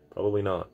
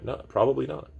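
First: Said in the usual way. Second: High, rising, teasing no; high playful answer. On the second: Real, not acted. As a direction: toss the no up high, half laughing. Answers own rhetorical question.

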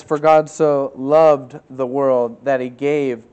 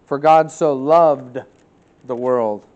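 First: "loved" drawn out slow and stressed; scripture read with weight on "loved". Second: Slow, weighty reading of "loved"; emphatic scripture reading; stress on LOVED. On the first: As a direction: dwell on "loved", slow and deliberate. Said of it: "past tense". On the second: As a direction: lean hard on "For God so loved". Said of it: "Past tense". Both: Shown as a demonstration.

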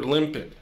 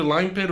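First: Said in the usual way. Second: Limpet said with a long i, like "lime-pet"; alternative pronunciation. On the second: Shown as a demonstration. Unsure of the name, offering the other pronunciation of Limpet, long i. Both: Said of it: "I think it's pronounced Limpet".

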